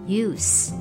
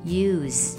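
First: The word ends in a hissing s sound. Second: The word ends in a buzzing z sound. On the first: The word is used as a noun. "当作名词发音是use" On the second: The word is used as a verb. "当作动词时发音是use"

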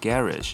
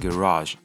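First: British style, stressed on the first syllable. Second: American style, stressed on the second syllable.

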